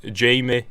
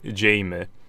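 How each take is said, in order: First: The first vowel sounds like in 'game'. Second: The same.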